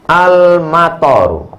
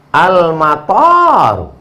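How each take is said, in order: First: Al-mator said slowly with a short last vowel; slow, deliberate Al-mator, last syllable not stretched; vowel-length demo. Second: Al-mator with the last vowel stretched out; slow Al-mator, long rising-then-falling last vowel. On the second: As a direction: draw out the final syllable of Al-mator. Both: Shown as a demonstration. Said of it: "Intonasi panjang pendek yang disebut dengan mad".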